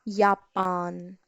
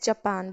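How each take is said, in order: First: It begins with a Y sound. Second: It begins with an English J sound. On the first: "but in German it is Japan" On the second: "in English we call it as Japan"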